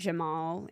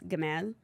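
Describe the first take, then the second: First: The name begins with a soft J sound. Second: The name begins with a hard G sound. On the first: This is how it is said outside Egypt. "anywhere like else" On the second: This is how it is said in Egypt. "in Egypt, it's Gamal"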